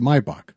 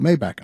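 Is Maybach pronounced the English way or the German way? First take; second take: German; English. First: The name is pronounced the German way. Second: The name is pronounced the English way. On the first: This is how it is said in Germany. "when you're in Germany, we pronounce it Maybach" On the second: This is how many people outside Germany say it. "But people call it Maybach"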